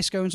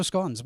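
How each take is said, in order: First: Scones rhyming with cones; long-O pronunciation. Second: Scones rhyming with dons; short-O pronunciation. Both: Shown as a demonstration. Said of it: "would she say scones or scones".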